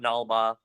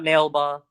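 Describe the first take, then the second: First: The name has two syllables: nal-ba. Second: The name has two syllables: nail-ba. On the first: "it's not Nalba" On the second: "it's not Nailba"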